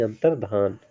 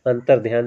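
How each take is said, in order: First: अंतर्धान with plain dhaan, no y glide; correct pronunciation. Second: अंतर्ध्यान with dhyaan, an added y glide; wrong pronunciation. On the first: Teacher giving students the corrected अंतर्धान, with no y glide. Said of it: "आज से सुधार कर लेंगे". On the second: Teacher showing students the mistaken अंतर्ध्यान, with a y glide. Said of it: "अंतर्ध्यान हम उच्चारित करते थे". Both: Shown as a demonstration.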